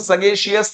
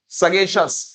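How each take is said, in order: First: The ending is said as two syllables, shee-us. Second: The ending is said as one syllable, shus. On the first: The speaker calls it wrong. "इसको सगेशियस नहीं बोलेंगे हम लोग" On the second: The speaker calls it right. "उसका जो उच्चारण होता है वो श और स होता है"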